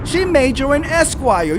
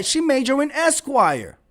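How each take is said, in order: First: Sarcastic, leaning on SHE; mock her claim with a sneer; mocking quote. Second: Dry, quieter sarcastic echo; softer mocking repeat. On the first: Mocking a chat-room commentator's claim, sarcastic. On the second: Mocking a chat-room commentator's claim, dry. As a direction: repeat it dryly under the breath. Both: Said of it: "That's what she said".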